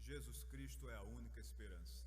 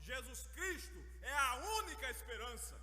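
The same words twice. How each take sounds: First: It is said at a moderate volume. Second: It is shouted with great force. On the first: It is spoken naturally in a conversation. "um pouquinho mais alto" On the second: It is spoken in the face of people's despair. "gritar com bastante força"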